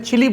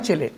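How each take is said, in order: First: The word ends with an 'ee' vowel. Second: The word ends with an 'ay' vowel. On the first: The speaker calls it wrong. "Hindi में हम इसे चिली बोल देते हैं" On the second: The speaker calls it right. "सही उच्चारण है चिले"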